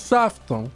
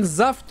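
First: The word begins with a hissing S sound. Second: The word begins with a buzzing Z sound. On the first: The speaker calls it wrong. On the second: The speaker calls it right.

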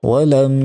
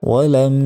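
The two takes are said the same way.

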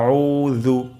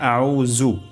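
First: The middle consonant uses the tongue tip at the teeth. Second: The middle consonant is not made at the teeth. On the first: The speaker calls it right. "জাল আমরা উচ্চারণ করব জিহ্বার আগা, সামনের দাঁতের আগা থেকে" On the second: The speaker calls it wrong. "এটি ভুল"

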